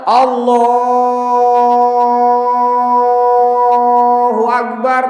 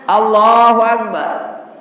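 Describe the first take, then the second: First: The phrase is drawn out long. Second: The phrase is said short and quick.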